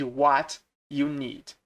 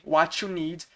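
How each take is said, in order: First: Each word is said clearly and separately. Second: The words run together into one quick chunk. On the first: "ao invés de" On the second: "quando você está falando rápido"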